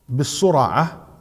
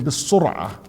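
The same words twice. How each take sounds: First: An a vowel follows the r. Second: No vowel follows the r. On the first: The one who beats others in wrestling. The speaker calls it right. "كهمزة" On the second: The one who has been beaten. The speaker calls it wrong. "It's not with the الفتح. They said"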